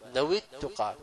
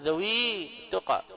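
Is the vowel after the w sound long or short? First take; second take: short; long. First: A short i after w runs straight into the next word. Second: A long ee vowel is held after the w. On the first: The speaker calls it right. "واو مكسورة ثم التقى مباشرة" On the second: The speaker calls it wrong. "لا تقول ذوي التقى"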